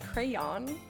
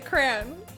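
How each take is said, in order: First: The word is said as two syllables. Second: The word is said as one syllable.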